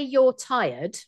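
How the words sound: The voice falls at the end. The speaker is stating it as a fact. "that is me pronouncing, and that's a statement"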